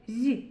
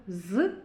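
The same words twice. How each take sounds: First: З palatalized, as zʲ with a slight i colour; softened z sound. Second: З as an isolated hard buzzing z; hard z sound. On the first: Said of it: "і пом'якшений звук з". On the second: Teacher showing children the sound, hard isolated з. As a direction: say з alone, tongue not softened. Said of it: "На письмі звук з". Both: Shown as a demonstration.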